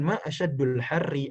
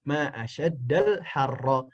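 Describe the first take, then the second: First: The last two words end in u and i. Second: The last two words both end in a. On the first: It asks what is hottest. The speaker calls it wrong. "yang benar itu bukan ma asyadul harri" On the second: It exclaims how hot it is. The speaker calls it right. "yang benar adalah dengan fathah atau dengan nasab"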